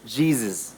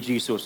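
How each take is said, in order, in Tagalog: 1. Ang gitnang katinig ay umuugong na tunog z. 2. Ang gitnang katinig ay sumisitsit na tunog s. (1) "Z dapat yon" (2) "Hindi Jesus"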